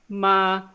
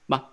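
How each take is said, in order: First: The pitch stays flat and high. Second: It is a quick, short burst. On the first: "it's just a flat, high-pitched sound" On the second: "just short burst like that"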